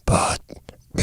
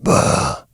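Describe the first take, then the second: First: Very soft, deep creature grunt; low, croaky alien grunt; low big alien. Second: Rough, breathy alien grunt; first go at a big creature's grunt. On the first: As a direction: drop it low like a huge brute. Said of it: "it's gotta be low". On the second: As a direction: grunt like a huge brute. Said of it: "all he says is this". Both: Acted.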